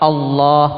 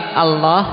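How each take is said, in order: First: The L is heavy and thick. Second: The L is thin and light. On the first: The speaker calls it right. "tapi Allah, lam yang mufakham" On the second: The speaker calls it wrong. "bukan naam tarkik Allah"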